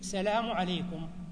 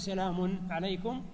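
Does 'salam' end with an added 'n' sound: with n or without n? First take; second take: without n; with n. First: The word salam ends without an added n sound. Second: The word salam ends with an added n sound. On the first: "تقول بدون تنوين" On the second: "يعني ما تقول سلام عليكم"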